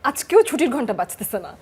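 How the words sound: It is said in an angry tone. "রাগ দেখিয়ে বললে"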